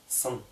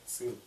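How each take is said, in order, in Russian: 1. Звук s сильный и напряжённый. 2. Звук s обычный и лёгкий. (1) "а сын" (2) "как русское"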